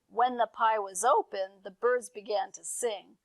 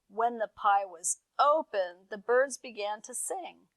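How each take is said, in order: First: It is said a little faster. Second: It is said at a normal pace.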